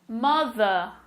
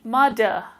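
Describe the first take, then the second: First: The middle consonant is a soft th sound. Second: The middle consonant is a hard d sound. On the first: The speaker calls it right. "this time with the T H in the middle of the words" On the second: The speaker calls it wrong. "Let's see how it sounds with a D. ... It's a much harsher sound"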